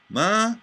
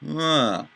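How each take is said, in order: First: The pitch stays flat through the syllable. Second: The pitch falls through the syllable. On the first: "a monotone inflection" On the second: "and an inflection down"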